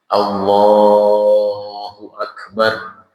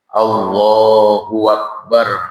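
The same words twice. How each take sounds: First: Akbar begins cleanly with no added w sound. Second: A w sound is added before Akbar. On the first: The speaker calls it right. "harus dengan lafaz Allah" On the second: The speaker calls it wrong. "Mereka suka takbir begini"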